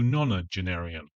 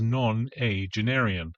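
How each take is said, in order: First: The word is said as one smooth unit. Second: The word is broken apart after its first syllable. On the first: The speaker calls it right. "as opposed to" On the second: The speaker calls it wrong. "she mispronounces nonagenarian"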